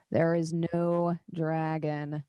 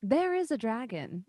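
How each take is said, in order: First: Slow, with "no" drawn right out; scornful denial. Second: IS pushed high in contradiction; insist, leaning on "is"; stress on IS. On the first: Surly councillor snorting at the claim, stressing "no". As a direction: stretch "no" in dismissive contradiction. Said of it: "you hear the other gentleman snort again". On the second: Councillor contradicting the doubters, stressing "is". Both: Acted.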